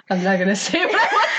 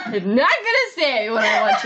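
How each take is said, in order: First: Laughing through the words; giggling as she says it. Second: Said in the usual way. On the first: Real, not acted. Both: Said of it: "said twice".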